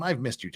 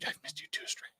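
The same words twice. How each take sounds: First: Said in the usual way. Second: Breathy whispered reply, no voice at all. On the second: Acted. Whispering back to returning viewer Stray. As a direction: whisper it like a secret to a friend.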